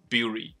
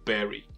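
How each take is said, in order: First: The vowel sounds like the one in 'fury'. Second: The vowel sounds like the one in 'berry'. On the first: The speaker calls it wrong. "bury 长得比较像fury，所以bury 是不是应该念作bury" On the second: The speaker calls it right. "它的发音跟那个草莓的莓基本上差不多的"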